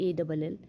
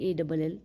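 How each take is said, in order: The two takes are said the same way.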